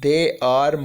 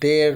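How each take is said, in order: First: Both words are said fully and separately. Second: The words are merged into one contracted word.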